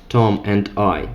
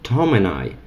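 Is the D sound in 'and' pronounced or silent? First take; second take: pronounced; silent. First: The D at the end of 'and' is pronounced. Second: The D at the end of 'and' is dropped. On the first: It is read formally. "Not Tom and I" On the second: It is read fast and informally. "we can make letter D silent there if we want to read it fast"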